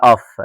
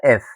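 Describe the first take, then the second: First: "اف" as aff, with an open A; "اف" mispronounced as aff; wrong letter name. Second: "اف" as eff, with an E vowel; "اف" with short open E before F; correct letter name. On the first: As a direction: say "اف" with an ah vowel before F. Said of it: "محدش يقول لها اف". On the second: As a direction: say "اف" like French F, eff. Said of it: "اسمها اف". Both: Shown as a demonstration.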